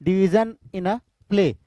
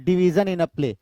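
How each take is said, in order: First: Slow, word by word, for notes; slow dictation. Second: Said in the usual way. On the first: Shown as a demonstration. Teacher dictating the definition to students, slow and deliberate. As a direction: spell it out slowly so they can write. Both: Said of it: "major division in a play को हम क्या बोलते हैं?".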